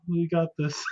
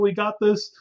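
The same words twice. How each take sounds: First: The voice sounds tired and less enthusiastic. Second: The voice sounds energetic and enthusiastic. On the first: The fast is wearing the speaker down. "the tone is a little bit different" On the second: The fast is just starting and feels easy. "compared to the beginning of Ramadan, where you're like, yeah, let's go"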